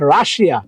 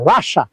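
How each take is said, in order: First: The word ends in an extra 'ee-a' sound. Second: The word ends in a short 'sha' sound. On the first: The speaker calls it wrong. "Not রাশিয়া" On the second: The speaker calls it right. "রাশিয়ার উচ্চারণ মনে রাখবা, রাশা"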